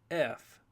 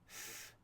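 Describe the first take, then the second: First: It is said as the full letter name. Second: It is said as a bare consonant sound. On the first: "the name of the letter is F" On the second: "Now the sound F"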